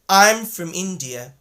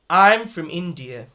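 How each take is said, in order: First: From is said with a reduced uh vowel. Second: The same.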